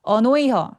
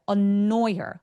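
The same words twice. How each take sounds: First: The phrase is said quickly with light consonants. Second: The phrase is said slowly with pressed consonants. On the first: The speaker calls it wrong. "이거 너무 빨라요" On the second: The speaker calls it right. "이렇게 끈적거리게 소리를 내야 영어처럼 들립니다"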